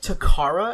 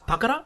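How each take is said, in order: First: One syllable is stressed, American style. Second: All syllables are even, without stress.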